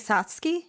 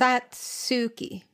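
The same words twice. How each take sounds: First: The u vowel after ts is dropped. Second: The u vowel after ts is clearly pronounced.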